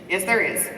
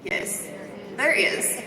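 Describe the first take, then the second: First: Said in the usual way. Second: Breathy whispered there is, said to herself; answering her own question in a hushed whisper. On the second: Real, not acted. Coach to audience, whispering there is first. Quiet aside before restating.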